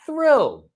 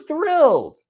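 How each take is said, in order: First: Thrilled said again much higher, with delight; delighted echo. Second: Said in the usual way. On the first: Real, not acted. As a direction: repeat it, lighting up on thrilled.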